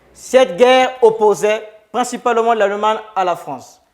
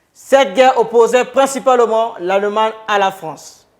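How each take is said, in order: The two takes are said the same way.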